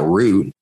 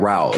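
First: The vowel rhymes with 'boot'. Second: The vowel rhymes with 'out'. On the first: The speaker calls it wrong. "not that root. Root sounds so depressing" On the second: The speaker calls it right. "You took that route"

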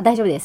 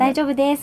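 First: It is said in a flat, curt tone. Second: It is said in a raised, higher tone.

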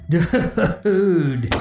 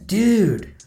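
First: It is said while laughing. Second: It sounds disbelieving.

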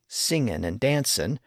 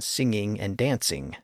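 First: The words end in a plain n sound. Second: The words end in a full ng sound.

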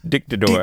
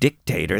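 First: It is said with a Spanish-sounding stress and sound. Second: It is said like the English word dictator. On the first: The speaker calls it right. "They put the emphasis on a different syllable" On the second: The speaker calls it wrong. "not pronounced Dictator"

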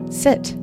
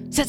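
First: It is said in a relaxed, calm, unhurried way. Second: It is said in a tense, rushed, panicked way. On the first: The leader feels settled and in control. The speaker calls it right. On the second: The leader feels anxious and out of control. The speaker calls it wrong.

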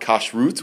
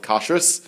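First: It is said in the Modern Hebrew way. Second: It is said in the traditional Ashkenazi way. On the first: This is how Modern Hebrew speakers say it.

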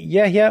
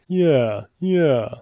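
First: It is said in a plain, ordinary tone. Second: It is said in a snooty, snobby tone.

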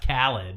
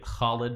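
First: The name is said the Americanized way. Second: The name is said the original Arabic way. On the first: The speaker calls it wrong. "but we say, oh, that's Khalid" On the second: The speaker calls it right. "it should be Khalid"

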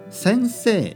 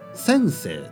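First: It is said with a standard Tokyo pitch accent. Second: It is said with a Kansai pitch accent. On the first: "先生じゃなくて" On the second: "先生とか言いますね"

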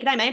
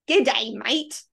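First: The words are run smoothly together. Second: The words are said separately and deliberately. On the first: This is how locals actually say the greeting. The speaker calls it right. "It all rolls together off the tongue" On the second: This is how outsiders imitate the greeting. The speaker calls it wrong. "if someone's saying an Australian version"

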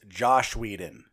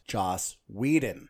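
First: The first name ends with an sh sound. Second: The first name ends with an s sound.

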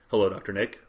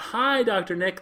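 First: It is said in a serious, subdued way. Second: It is said in a lively, enthusiastic way.

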